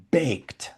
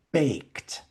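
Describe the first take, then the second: First: "Baked." repeated in a breathy whisper; a hushed, weighty "Baked."; whispered emphasis. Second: Said in the usual way. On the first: Shown as a demonstration. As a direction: whisper "Baked." to let it sink in.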